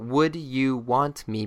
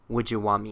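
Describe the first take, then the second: First: Each word is said fully and clearly. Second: The words are reduced and run together.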